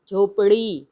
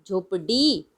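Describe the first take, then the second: First: "झोपड़ी" with a retroflex flap; flapped ड़. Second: "झोपड़ी" with a hard stopped ड. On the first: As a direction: flick the tongue in "झोपड़ी", no hard d. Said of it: "लेकिन हम क्या बोल रहे हैं". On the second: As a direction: stop the tongue firmly in "झोपड़ी", no flap. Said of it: "अगर ड होता तो हम बोलते हैं". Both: Shown as a demonstration.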